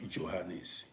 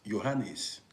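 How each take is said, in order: First: The name begins with a J sound. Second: The name begins with a Y sound. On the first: The speaker calls it wrong. "not Johannes" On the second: The speaker calls it right. "how we call it here in Dutch"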